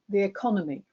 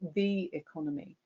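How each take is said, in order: First: The stress falls on the word economy. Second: The stress falls on the word the. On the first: The economy is a familiar, taken-for-granted thing. "people tended to put the stress on the second word" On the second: The national economy is set apart from their own economies. "they put the stress on the first word"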